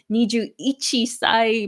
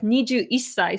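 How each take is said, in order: First: The 'one' is said in full as 'ichi'. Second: The 'one' is shortened, joining into 'issai'. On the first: The speaker calls it wrong. "Some people might say niju ichisai by accident" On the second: The speaker calls it right. "you say niju isai"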